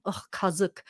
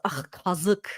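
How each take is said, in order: First: Quiet, disgusted ugh, kazık; eye-rolling disgust. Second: Quiet, disgusted ugh, kazık. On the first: Showing viewers how to say it, eye-rolling disgust. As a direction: roll your eyes and sneer kazık. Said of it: "You roll your eyes at the same time". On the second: Teaching viewers the word, quiet disgust. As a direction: say kazık like an insult. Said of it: "almost like an insult". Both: Shown as a demonstration.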